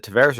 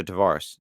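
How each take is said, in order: First: "Tavares" with middle vowel as in "air"; "Tavares" rhyming roughly with "heiresses", minus the last syllable; alternate pronunciation. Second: "Tavares" with middle vowel as in "car"; "Tavares" with an open AH in the stressed middle; chosen pronunciation. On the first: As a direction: say "Tavares" as tuh-VAIR-ess. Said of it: "is it Tavares or Tavares". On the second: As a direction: say "Tavares" as tuh-VAR-ess. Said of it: "Tavares we'll go with". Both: Shown as a demonstration.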